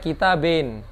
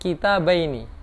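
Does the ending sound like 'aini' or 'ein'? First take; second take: ein; aini. First: The ending is a short 'ein' with no final vowel. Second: The ending has the diphthong 'ai' and final vowel. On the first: This is the Egyptian dialect form. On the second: This is the formal standard form.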